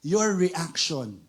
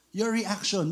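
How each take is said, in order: First: "your reaction" drawn out slowly, each word leaned on; slow emphasis. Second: Said in the usual way. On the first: Shown as a demonstration. Preacher to congregation, slowly stressing "your reaction". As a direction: stretch out "your reaction" slowly to make it sink in.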